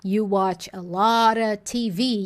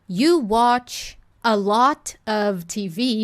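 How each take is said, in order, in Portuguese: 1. A palavra 'of' é reduzida e se junta a 'lot'. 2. A palavra 'of' é pronunciada completa e clara. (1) "tá tudo bem ela falar" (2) "ao invés dela falar"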